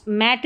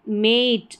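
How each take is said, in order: First: मैट with a short open "a", like mat. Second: मेट with a long "ay" vowel, like mate. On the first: Teacher showing the reading to avoid, मैट with short "a". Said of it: "ए का short sound रहेगा". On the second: Teacher practising the magic E rule, मेट with long "ay". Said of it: "ये मेट है". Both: Shown as a demonstration.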